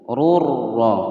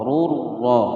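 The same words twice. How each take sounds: Both takes have the same delivery.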